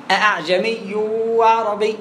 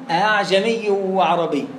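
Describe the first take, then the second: First: أعجمي begun with two separate glottal stops; slow recitation, both hamzas of أعجمي fully sounded; two full hamzas. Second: أعجمي with its second hamza softened into a glide, drawn out; slow recitation, easing the second hamza of أعجمي; eased second hamza. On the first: Teacher showing the alternative reading, two distinct hamzas. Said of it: "بهمزتين". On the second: Teacher giving the reading some cannot manage, eased hamza. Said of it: "بعض الناس مش عارف يجيب". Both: Shown as a demonstration.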